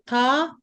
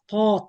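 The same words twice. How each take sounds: First: The consonant is light, without a deep heavy quality. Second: The consonant is heavy, with a deep emphatic quality. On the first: The speaker calls it wrong. "Don't say, This is in between. but not heavy ta" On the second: The speaker calls it right. "So make sure you say ta. it's very heavy"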